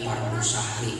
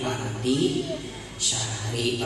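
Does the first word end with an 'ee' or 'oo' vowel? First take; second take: oo; ee. First: The first word ends with an 'oo' vowel. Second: The first word ends with an 'ee' vowel. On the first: The speaker calls it wrong. "Kadang ada yang mengucap pardu syahri. ... Jangan" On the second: The speaker calls it right. "tapi pardi syahri Ramadan"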